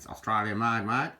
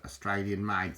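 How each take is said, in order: First: Put-on louder jokey Australian accent on made, mate; playful Australian twang on "Australian made, mate"; mock Australian accent. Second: Said in the usual way. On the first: Joking to viewers about the bull roarer, mock Australian accent. Repeats phrase in Aussie accent.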